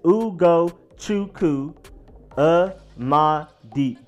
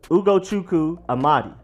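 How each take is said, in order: First: The name is said slowly and carefully. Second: The name is said at a normal pace.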